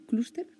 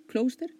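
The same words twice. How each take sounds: First: "cluster" as KLOOS-ter, higher and questioning; accent on the U. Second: "Cluster" as KLOS-ter, higher and questioning; alternate pronunciation. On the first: Podcaster checking a pronunciation aloud, "cluster" with stressed U. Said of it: "Con acento en la U". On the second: Podcaster checking a pronunciation aloud, "Cluster" as KLOS-ter. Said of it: "¿cómo se pronuncia?". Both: Shown as a demonstration.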